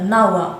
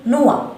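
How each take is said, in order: First: "نوى" said wrongly as NAU-wa; "نوى" with AU in place of O; mispronounced Noah. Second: "نوى" said as English NOH-wa; "نوى" pronounced NO-uh, with a W glide; correct Noah. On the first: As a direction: open the first vowel of "نوى" to an AH, NAH-wa. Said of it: "لا نقول نا كما تنطق". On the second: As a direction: round the first vowel of "نوى" to a long O. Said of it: "نقول نوى". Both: Shown as a demonstration.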